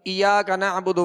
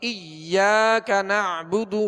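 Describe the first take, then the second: First: The y sound is short and single. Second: The y sound is doubled and held. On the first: The speaker calls it wrong. "इस तरह नहीं पढ़ेंगे जैसे बाज पढ़ते हैं" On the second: The speaker calls it right. "यहाँ या मुशद्दद है"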